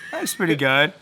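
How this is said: It is said flatly, with little enthusiasm. The speaker does not really care about it. "That's like whatever"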